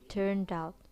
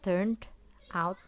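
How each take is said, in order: First: The final d links into the next word. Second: The two words are said separately. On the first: The speaker calls it right. "akhiran ed yang dibaca de itu digandeng dengan kata out" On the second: The speaker calls it wrong. "mereka nggak bilang"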